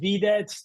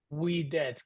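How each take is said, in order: First: The word begins with a v sound. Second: The word begins with a w sound. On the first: This is the church pronunciation. "if you're tempted to say videt, that's fine" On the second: This is the reconstructed classical pronunciation. "that V is going to pronounce like a W sound"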